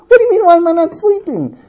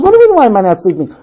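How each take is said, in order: First: High-pitched, incredulous comeback; exasperated retort. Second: Rapid, near-normal pitched comeback; quick retort. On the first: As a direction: repeat the question in outraged disbelief. Repeat of retort, escalated. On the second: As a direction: toss the question back quickly. First take of husband's retort. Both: Acted.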